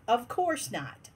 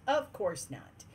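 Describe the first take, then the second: First: Said in the usual way. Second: Resigned mutter to herself; muttered aside. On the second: Real, not acted. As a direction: lower and softer, said under her breath. Repeats exasperated remark to herself.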